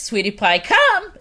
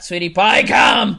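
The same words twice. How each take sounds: First: It is said in a warm, friendly tone. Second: It is said in a harsh, stern tone. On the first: The dog is happy to come. The speaker calls it right. "And it is" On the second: The dog feels intimidated. The speaker calls it wrong. "It's not"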